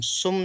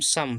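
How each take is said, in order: First: The vowel sounds like 'oo'. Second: The vowel sounds like 'uh'. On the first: The speaker calls it wrong. "सुम नहीं" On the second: The speaker calls it right. "S से सा M से मा, यू silent"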